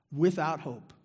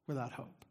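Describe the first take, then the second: First: Said in the usual way. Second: Much softer repeat; soft echo. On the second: Real, not acted. Preacher echoing to the congregation, hushed repeat. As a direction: let it sink, barely voiced above a hush.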